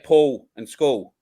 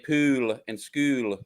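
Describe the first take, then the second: First: It is said in the speaker's non-Queensland accent. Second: It is said in a Queensland accent.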